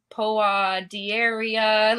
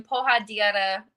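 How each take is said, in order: First: "Poa Dieria" dragged out slowly, syllable by syllable; botched announcer pronunciation. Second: Said in the usual way. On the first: Retold or imitated. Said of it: "didn't know how it was pronounced". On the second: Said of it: "in his Portuguese accent".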